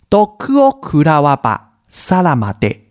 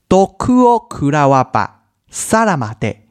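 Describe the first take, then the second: The two takes are said the same way.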